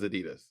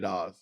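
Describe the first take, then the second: First: Adidas is said the American way. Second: Adidas is said the non-American way.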